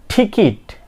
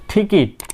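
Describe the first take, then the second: Both takes have the same delivery.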